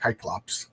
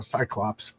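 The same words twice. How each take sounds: First: The word begins with a hard K sound. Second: The word begins with a soft S sound. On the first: This is the Greek pronunciation. "in Greek, this the C is pronounced as a K, like you're supposed to say like" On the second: This is the English pronunciation. "instead of a"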